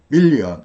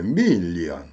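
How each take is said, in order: First: It is said with a Korean-style downward accent. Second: The first syllable rises in pitch.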